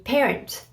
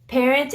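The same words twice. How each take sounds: First: Parent in English, final T sounded; English pronunciation. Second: Parent in French, no T at the end; French silent T. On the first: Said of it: "words that we use in French and in English". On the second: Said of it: "you don't pronounce the T". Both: Shown as a demonstration.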